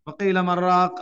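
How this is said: The n sound merges straight into 'raq'. The speaker calls it wrong. "Noon வந்து அதோட சேர்ந்து ... அப்படி வரக்கூடாது"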